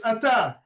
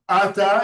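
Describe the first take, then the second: First: "ata" stressed on the last syllable, a-TA; stress at the end. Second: "ata" stressed on the first syllable, A-ta; wrong stress. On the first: Teacher correcting the accent, "ata" with final stress. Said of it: "The accent should be at the end". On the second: Teacher showing students the mistake, "ata" with early stress. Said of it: "It's not ata". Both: Shown as a demonstration.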